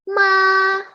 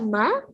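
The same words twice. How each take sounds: First: The pitch stays level and flat. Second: The pitch rises slightly. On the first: "Itu untuk nada pertama" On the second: "nada kedua agak"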